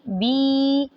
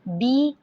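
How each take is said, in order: First: The vowel is drawn out long. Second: The vowel is short and smooth. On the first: The speaker calls it wrong. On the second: The speaker calls it right.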